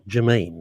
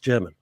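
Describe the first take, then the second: First: The stress falls on the second syllable. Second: The stress falls on the first syllable. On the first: The speaker calls it wrong. "it's not Germain" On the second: The speaker calls it right. "It's it's it's German"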